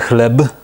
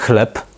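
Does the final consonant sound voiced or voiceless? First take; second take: voiced; voiceless. First: The final consonant is a voiced b. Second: The final consonant is a voiceless p. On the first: The speaker calls it wrong. "Nie mówimy chleb, bo jest to hiperpoprawne" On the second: The speaker calls it right. "gdzie B się ubezdźwięcznia"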